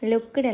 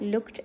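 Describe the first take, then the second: First: The word is stretched with an extra ending sound. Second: The word is said as one short syllable. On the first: The speaker calls it wrong. "ലുക്ക്ഡ് അല്ല" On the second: The speaker calls it right. "ലുക്ഡ് ആണ് ഉച്ചാരണം വരിക"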